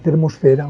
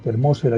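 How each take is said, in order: First: The stress is on the third syllable. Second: The stress is on the second syllable. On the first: "yo prefiero decir termosfera" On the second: "en esdrújula"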